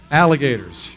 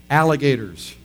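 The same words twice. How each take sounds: The two takes are said the same way.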